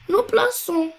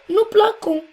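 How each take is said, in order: First: The consonant before -ons is an s sound. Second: The consonant before -ons is a k sound. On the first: The speaker calls it right. "on a ajouté un C avec une cédille" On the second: The speaker calls it wrong. "pour ne pas dire"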